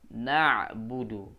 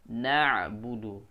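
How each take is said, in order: Both takes have the same delivery.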